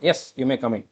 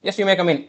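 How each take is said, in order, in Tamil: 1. "yes" க்கு அப்புறம் ஒரு சின்ன இடைவெளி இருக்கு. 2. "yes" க்கு அப்புறம் இடைவெளி இல்லாம தொடர்ந்து போகுது. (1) "ஒரு கேப் விட்டு தான் சொல்லுவோம்" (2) "அப்படிங்கிற மாதிரி சொல்ல மாட்டோம்"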